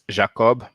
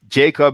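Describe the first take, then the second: First: The name is pronounced the French way. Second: The name is pronounced the English way. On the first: "In French, it's Jacob" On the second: "the way we pronounce that name in English"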